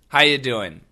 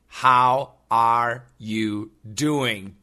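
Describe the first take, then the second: First: The word 'are' is dropped entirely. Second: The word 'are' is clearly pronounced. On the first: "most Americans almost always just say" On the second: "today's expression is once again"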